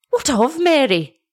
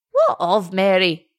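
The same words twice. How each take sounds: First: Higher, frightened cry of a mother; terrified mother. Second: Lightly voiced old man, alarmed; old father's cry. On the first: Acted. Mother fears for her drowned daughter, high frightened cry. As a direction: let terror push the voice up. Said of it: "cried her mother, shuddering and groaning with terror". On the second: Old shepherd asks after his daughter, lightly voiced and alarmed. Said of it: "cried the goodman".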